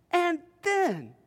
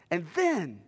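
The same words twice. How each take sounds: First: "then" pitched high and falling; stress on then. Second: Said in the usual way. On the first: Shown as a demonstration. Preacher builds to the jailer's turn, "then" stressed high. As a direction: repeat it with "then" lifted high for emphasis. Repeated higher for suspense.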